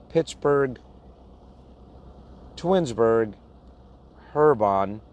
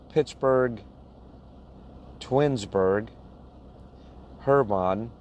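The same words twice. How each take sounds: The two takes are said the same way.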